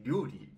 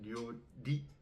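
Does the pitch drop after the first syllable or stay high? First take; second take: drops; stays high. First: The pitch is high first, then drops. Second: The pitch rises and stays high, no early drop. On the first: "she didn't say Ryori" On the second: "she said Ryori"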